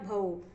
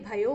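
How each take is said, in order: First: The word ends with a plain 'o' sound. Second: The word ends with a 'yo' sound. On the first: This is the Kannauji dialect form. "ओ का उच्चारण होता है" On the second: This is the Braj dialect form. "यह हो गया ब्रज भाषा"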